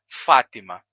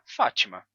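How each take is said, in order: First: The t is a plain, light t sound. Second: The t sounds like a ch sound. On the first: This is how the name sounds in Portuguese. "esse som do T some. A gente não tem esse T enfático" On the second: This is how the name sounds in some Portuguese accents. "de um sotaque que transforma o T em Ti"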